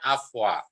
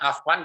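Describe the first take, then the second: First: The word ends without an n sound. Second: The word ends with an n sound.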